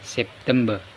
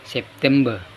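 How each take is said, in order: No difference in how they are said.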